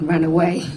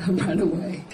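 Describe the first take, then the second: First: Said in the usual way. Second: Softer, laughing through it. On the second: Real, not acted. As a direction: giggle as you repeat it. Repeats it laughing.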